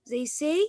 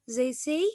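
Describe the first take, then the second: Both takes have the same delivery.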